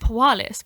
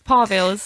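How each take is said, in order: First: The middle consonant is a W sound. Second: The middle consonant is a V sound. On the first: The speaker calls it wrong. "For ages, I thought Pawalis" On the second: The speaker calls it right. "Okay, we're going with a V. It's Parvils"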